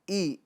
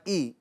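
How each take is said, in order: No difference in how they are said.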